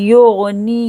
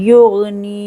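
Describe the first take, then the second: The two takes are said the same way.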